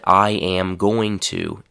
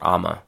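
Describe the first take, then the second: First: Every word is said fully and clearly. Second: The words are squeezed into one short blended word.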